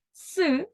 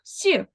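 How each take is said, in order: First: Isolated hard "с", not palatalized; "с" pronounced hard, as a lone consonant; hard S sound. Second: Isolated soft "с", palatalized; "с" pronounced softened, with the tongue raised; soft S sound. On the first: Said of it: "він твердий приголосний". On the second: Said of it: "він м'який". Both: Shown as a demonstration.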